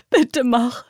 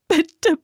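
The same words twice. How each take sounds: First: Loud pressing begging; insistent plea. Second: High, loud begging; urgent plea. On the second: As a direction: beg urgently. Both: Acted. Terrified girl begs.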